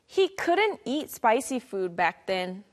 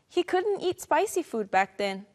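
First: It is said at a slower pace. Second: It is said at a faster pace.

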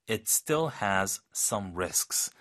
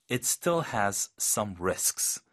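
The two takes are said the same way.

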